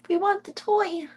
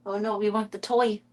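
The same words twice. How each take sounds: First: Squeaky high voice for the kitten; high baby voice. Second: Said in the usual way. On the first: Acted. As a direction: coo it up high like baby talk.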